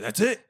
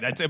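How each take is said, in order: First: It is said imitating the waiter's accent. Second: It is said in his plain voice.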